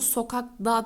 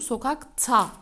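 First: The suffix begins with a voiced 'd' sound. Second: The suffix begins with a voiceless 't' sound. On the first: The speaker calls it wrong. "Sokak da demiyorum" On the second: The speaker calls it right. "sokak ta diyorum. Sertleşme oluyor"

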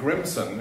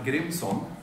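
First: The name is said with an American pronunciation. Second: The name is said with a Swedish pronunciation. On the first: "in American vernacular" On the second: "that's how I would say it as a Swede"

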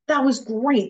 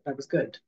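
First: It is said with big, enthusiastic praise. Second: It is said calmly, with restrained praise.

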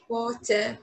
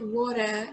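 First: It is said with a clear, crisp t. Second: It is said with a soft, flapped t.

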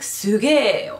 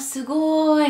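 First: The word ends in a drawn e sound. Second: The word ends in an i sound. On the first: "úgy is ejtik ki, mint hogyha ére végződne" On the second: "nem azt mondják, hogy a szugoly"

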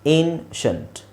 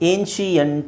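First: The ending is one syllable, 'shunt'. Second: The ending is split into two syllables. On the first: The speaker calls it right. "ಶಂಟ್ ಅಂತ pronounce ಮಾಡಬೇಕು" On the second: The speaker calls it wrong. "ಅದನ್ನು ಏನ್ಶಿಯಂಟ್ ಅಂತ ತುಂಬ ಜನ ಹೇಳ್ತಾರೆ, which is wrong"

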